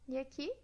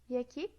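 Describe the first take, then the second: No difference in how they are said.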